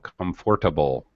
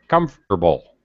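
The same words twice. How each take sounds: First: The middle 'or' sound is fully pronounced. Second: The middle 'or' sound is dropped. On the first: The speaker calls it wrong. "We don't say that" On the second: The speaker calls it right. "It sounds like this"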